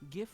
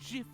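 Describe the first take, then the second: First: The word begins with a hard g sound. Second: The word begins with a j sound.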